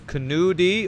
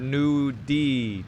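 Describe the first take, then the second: First: The name begins with a pronounced K sound. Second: The name begins with an N sound, K silent. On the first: "I don't know if I'm supposed to pronounce that K" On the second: "is a silent K"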